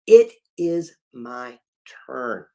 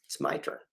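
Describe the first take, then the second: First: It is my turn, slow and loud, each word hit; slow declaration of It is my turn; emphatic vow. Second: Hushed resolve; whispered vow. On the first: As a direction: plant every word of It is my turn. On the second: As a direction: whisper it's my turn. Declaring one's turn. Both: Shown as a demonstration.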